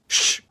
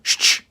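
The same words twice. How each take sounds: First: Two sounds are blended together quickly. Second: Two sounds are said separately and slowly. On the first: "it can be pronounced much faster, blending the sounds together. Something like sh" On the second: "it makes the sound sh"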